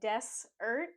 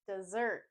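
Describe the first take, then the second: First: The stress is on the first syllable. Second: The stress is on the second syllable. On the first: The speaker calls it wrong. "We don't say desert" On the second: The speaker calls it right. "we say dessert. The stress is on the second syllable"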